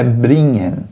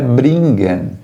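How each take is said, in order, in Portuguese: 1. O ng é pronunciado como um som nasal suave. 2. O ng é pronunciado com um som de g forte. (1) "é bringen... Fica algo semelhante ao N H" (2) "não é bringen"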